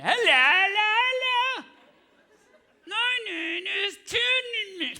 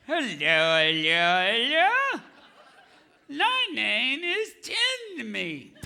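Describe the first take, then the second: First: High, slow mumbled ventriloquist voice, lips still; high strained puppet voice. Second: Slow ventriloquist puppet voice; a hint of British puppet. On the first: Pretend. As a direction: squeeze the words out without lips. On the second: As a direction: try a puppet voice without moving lips. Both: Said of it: "British puppet named Timmy".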